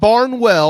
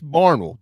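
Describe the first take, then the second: First: It is said the way northern outsiders say it. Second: It is said the way local residents say it. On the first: This is how visitors from the North say it. The speaker calls it wrong. "Not Barnwell, all you Yankees" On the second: This is how people in the town say it. The speaker calls it right. "It's Barnwell"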